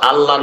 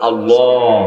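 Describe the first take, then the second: First: The L is light, with unrounded lips. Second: The L is heavy, with rounded lips. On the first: The speaker calls it wrong. "আল্লাহ না" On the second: The speaker calls it right. "দুইটা ঠোঁট গোল করে, লামকে ফোর করে, মোটা করে মোহাব্বতের সাথে"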